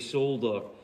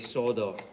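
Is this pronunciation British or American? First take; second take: British; American. First: It is said the British way, with an L. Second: It is said the American way, without an L.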